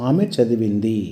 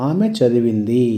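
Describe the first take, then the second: The two takes are said the same way.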